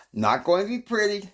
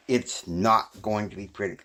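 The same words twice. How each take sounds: First: Much higher, playful repeat of the warning; high sing-song echo. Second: Said in the usual way. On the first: Shown as a demonstration. Host teasing the audience, high mock echo. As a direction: toss it back up high, teasing.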